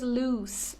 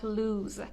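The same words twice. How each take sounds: First: The word ends with a soft s sound. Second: The word ends with a buzzing z sound. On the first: The speaker calls it right. "The pronunciation is loose" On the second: The speaker calls it wrong. "not loose"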